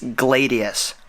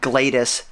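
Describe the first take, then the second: First: The name is said with three syllables. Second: The name is said with two syllables. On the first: The speaker calls it right. "it's Gladius" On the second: The speaker calls it wrong. "I mispronounced the name of the drone. It's not Gladys"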